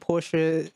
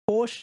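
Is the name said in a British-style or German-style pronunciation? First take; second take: German-style; British-style. First: The name is said closer to the German way. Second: The name is said the British way. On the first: "Porsche is more accurate to the German pronunciation" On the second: "Porsche is what British people say"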